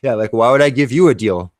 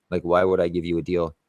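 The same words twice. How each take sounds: First: Louder, higher, scoffing retort; loud scoff of a repeat; loud mocking repeat. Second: Said in the usual way. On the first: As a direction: throw the line back at her, loud and amused. Repeats his line to the customer.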